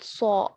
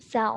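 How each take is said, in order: First: The syllable is said heavy and full. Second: The syllable is said light and thin. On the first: The speaker calls it right. "not Saw, because we know that it is a tafkhim letter" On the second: The speaker calls it wrong. "wherever there is Sad also you are reading Sa only"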